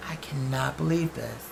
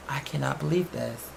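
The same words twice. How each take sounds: The two takes are said the same way.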